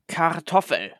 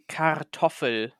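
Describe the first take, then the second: First: The word is said in a natural, relaxed way. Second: Every letter is pronounced exactly as written. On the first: The speaker calls it right. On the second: The speaker calls it wrong.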